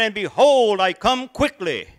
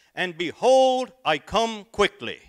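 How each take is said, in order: First: Much higher and much louder preaching shout; booming proclamation. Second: Proclaiming the verse. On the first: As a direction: belt the verse to the back pew. Second try, even bigger. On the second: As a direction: thunder it from the pulpit. Nervous preacher proclaiming the verse. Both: Acted.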